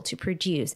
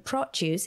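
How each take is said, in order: First: "produce" as pro-DUCE; second-syllable stress. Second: "produce" as PRO-duce; first-syllable stress. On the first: Teaching the verb to learners, second-syllable stress. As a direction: put the weight on the end of "produce". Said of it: "stress in the second syllable". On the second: Teaching the noun to learners, first-syllable stress. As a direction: put the weight on the start of "produce". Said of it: "stress falls in the first syllable". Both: Shown as a demonstration.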